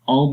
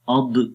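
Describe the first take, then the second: First: The final consonant is held smoothly without bounce. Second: The final consonant is released with an echoing bounce. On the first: The speaker calls it right. "जुबान थोड़ी सी आगे मूव हुई" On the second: The speaker calls it wrong. "सिफ्त कलकला कर देते हैं, पढ़ते हैं औद औद, तो वो गलत है"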